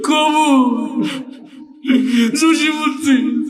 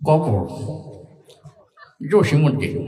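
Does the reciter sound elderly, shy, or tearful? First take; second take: tearful; elderly. First: It is recited in a crying, sobbing voice. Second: It is recited in an old, mumbling, chewing voice. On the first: The reciter is overcome with emotion. "ও তো আগেই কান্দা শুরু করে দিছে" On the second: The reciter is an old man chewing betel. "মুরব্বী পান খেতে খেতে আসছে"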